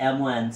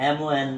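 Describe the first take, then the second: No difference in how they are said.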